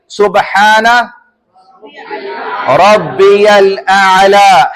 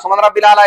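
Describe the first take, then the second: First: The phrase is said slowly and carefully. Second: The phrase is said quickly and hurriedly. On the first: The speaker calls it right. "इत्मीनान से पढ़ना" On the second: The speaker calls it wrong. "तेज नहीं पढ़ना है ... ऐसे नहीं पढ़ सकते"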